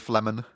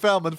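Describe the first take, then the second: First: The name begins with the sounds 'fle'. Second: The name begins with the sounds 'fel'. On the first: The speaker calls it right. "Since when is it F L E?" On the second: The speaker calls it wrong. "Have I been saying it wrong this whole time"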